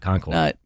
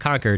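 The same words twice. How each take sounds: First: The name is said in the non-local way. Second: The name is said in the local New Hampshire way. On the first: This is not how people there say the town's name. The speaker calls it wrong. "not Concord" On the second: This is how people there say the town's name. The speaker calls it right. "up there, it's Concord"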